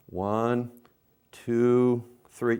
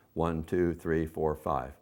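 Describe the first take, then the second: First: "One, two, three" stretched out with long gaps; string the count out slowly. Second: "One, two, three, four, five" counted quickly and lightly; fast count. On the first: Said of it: "how I counted much slower". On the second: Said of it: "you count faster". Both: Shown as a demonstration.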